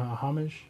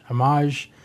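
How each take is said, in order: First: "homage" as HOM-ij, H pronounced; homage with H sounded. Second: "homage" as uh-MAHZH, H silent; French-style homage. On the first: Podcaster trying out how to say it, "homage" as HOM-ij. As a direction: stress the first syllable of "homage", with an audible H. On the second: Podcaster settling on a pronunciation, "homage" as uh-MAHZH. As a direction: stress the second syllable of "homage", soft zh ending. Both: Shown as a demonstration.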